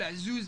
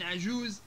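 First: عزوز as azuz. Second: Said in the usual way. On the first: Shown as a demonstration. Teacher contrasting forms, عزوز with two z sounds. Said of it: "تحيل الجيم إلى زين". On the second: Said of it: "بدل من عجوز".

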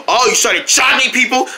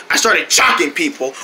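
First: "chocking" raised high in surprise; questioning echo. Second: Lower, falling answer on "chocking"; confirming statement. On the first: Incredulous question in dialogue. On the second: Matter-of-fact answer. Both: Acted.

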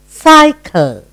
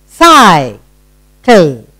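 First: Said in the usual way. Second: "Cycle" split by a long pause, first half stretched; split into syllables. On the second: Shown as a demonstration. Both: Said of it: "Two syllable word".

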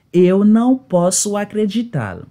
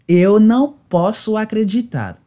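Both takes have the same delivery.

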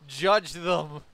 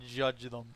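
First: JUDGE THEM said much louder; emphatic command. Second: Said in the usual way. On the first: Real, not acted. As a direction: belt out "Judge them" as an order.

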